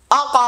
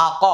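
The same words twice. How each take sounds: First: "আ ক" with ক bouncing upward in a short echo; correct qalqalah. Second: "আ ক" with the ক sounded as a full separate vowel syllable; wrong qalqalah. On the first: Teacher showing students the right way, "আ ক" with an upward echo. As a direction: bounce the sound up on the ক of "আ ক". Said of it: "এইভাবে". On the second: Teacher showing students the mistake, "আ ক" with a full vowel on ক. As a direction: say "আ ক" without a short bounced echo. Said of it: "এরকমটা যেন না হয়". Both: Shown as a demonstration.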